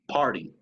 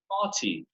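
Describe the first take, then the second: First: The t is a quick tap like a Spanish r. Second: The t is a fully released, clear t sound. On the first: "Como la R del español" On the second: "in British English, they always pronounce the T"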